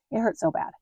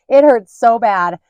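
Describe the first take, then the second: First: Said in the usual way. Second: It hurt so bad stretched out loud and slow, hurt leaned on; emphatic pain. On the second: Mom stressing her strep pain, loud and slow. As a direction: groan the word hurt out loud.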